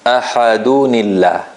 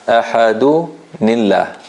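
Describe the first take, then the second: First: Ahadunillah read slowly as one joined word; slow, unbroken teacher's model of "Ahadunillah"; pronunciation demo. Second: Ahadunillah split slowly as Ahadu... nillah; slow teacher's model of "Ahadunillah" in two parts; syllable-split demo. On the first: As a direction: link "Ahadunillah" through, n carried into illah. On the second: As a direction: pause after du in "Ahadunillah", then say nillah. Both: Shown as a demonstration. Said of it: "read it as it is written here".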